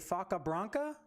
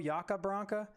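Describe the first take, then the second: First: The name begins with an F sound. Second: The name begins with a Y sound. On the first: "I think the Y is si- silent" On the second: "Or it could be the F silent"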